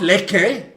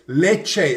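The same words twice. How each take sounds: First: The name is pronounced the English way. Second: The name is pronounced the Italian way. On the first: The speaker calls it wrong. "It's not Lecce" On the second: The speaker calls it right. "It's Lecce. It's Italian"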